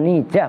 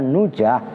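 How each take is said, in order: First: The first syllable has a front i vowel. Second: The first syllable has a rounded u vowel. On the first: "bukan nijah" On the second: "bukan nujah"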